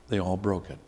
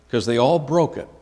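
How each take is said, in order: First: Repeated much softer, like a quiet afterthought; soft echo. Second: Said in the usual way. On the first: Real, not acted. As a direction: let it land in a low murmur.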